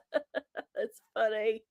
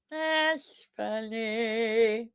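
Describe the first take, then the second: First: Slow, said through a laugh; amused reply to a chat joke. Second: Very slow, dry repeat; dry echo of her own laugh line; deadpan. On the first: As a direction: chuckle the words out. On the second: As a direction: let the words hang, droll. Reacting to a chat joke. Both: Real, not acted.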